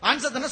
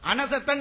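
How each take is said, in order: First: No vowel is sounded between n and s. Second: A vowel is sounded between n and s. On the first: The speaker calls it right. "சுக்குன் போட்டிருக்கும்" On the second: The speaker calls it wrong. "நூனுக்கு மேல சவர் போட்டிருக்கும்"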